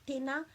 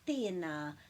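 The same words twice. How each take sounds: First: The vowels are said short and clipped. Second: The vowels are drawn out and long. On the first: The speaker calls it wrong. "it's just not" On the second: The speaker calls it right. "it just pulls those sounds out a bit, bit longer"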